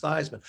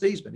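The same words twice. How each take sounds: First: "Theismann" with the long i of Heisman, THIGHS-man. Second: "Thiesman" with a long ee, THEES-man. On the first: PR man insisting, "Theismann" said THIGHS-man. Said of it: "your last name is pronounced Theismann". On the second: Correcting the PR man, "Thiesman" said THEES-man. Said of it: "my last name is pronounced Thiesman". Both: Retold or imitated.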